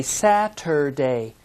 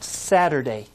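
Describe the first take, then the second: First: Saturday, slow with each sound spelled out; every syllable of Saturday said clearly; careful Saturday. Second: Saturday said the everyday way, sounds run together; relaxed Saturday as people normally say it; natural quick Saturday; usual Saturday. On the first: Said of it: "If we say it slowly and read each sound". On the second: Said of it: "but usually it's pronounced Saturday". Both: Shown as a demonstration.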